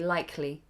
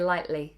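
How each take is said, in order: First: The K sound in the middle is pronounced. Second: The K sound in the middle is dropped. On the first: The speaker calls it right. "You'd say likely. Always with the K" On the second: The speaker calls it wrong. "We do not drop the K. You wouldn't say lightly"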